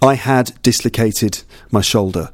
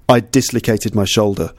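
First: The word 'had' is fully pronounced. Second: The 'd' of 'had' merges into 'dislocated'. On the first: "with all the words completely pronounced" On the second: "very fluently"

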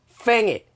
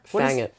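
First: It is said in an attempted Australian accent. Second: It is said in the speaker's ordinary accent.

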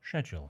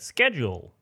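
First: It is said with a British accent. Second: It is said with an American accent.

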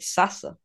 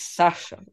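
First: The middle consonant is a plain s sound. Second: The middle consonant is a sh sound. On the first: The speaker calls it wrong. "they've been pronouncing it Sasa" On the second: The speaker calls it right. "it is Sasha with a sh sound"

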